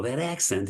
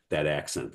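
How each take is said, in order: First: Put-on puzzled "that accent?", pitched higher; retold question, higher in pitch; questioning echo. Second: Said in the usual way. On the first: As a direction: echo it back as a surprised question. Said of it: "I go". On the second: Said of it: "He goes".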